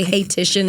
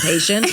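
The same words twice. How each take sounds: First: "Titian" said as hay-TISH-un; mispronounced Haitian. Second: Said in the usual way. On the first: Retold or imitated. Quoting a wasted castmate's slip, mispronounced "Hey, Titian". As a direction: say "Hey, Titian" as one botched word for Haitian. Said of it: "some of us say". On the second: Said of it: "instead of Haitian".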